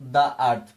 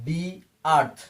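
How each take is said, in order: First: The article is said with a short 'uh' vowel. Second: The article is said with a long 'ee' vowel. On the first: The speaker calls it wrong. "যদি কেউ দ্য earth বলে তাহলে এই প্রোনাউন্সিয়েশনটা ভুল হবে" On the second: The speaker calls it right.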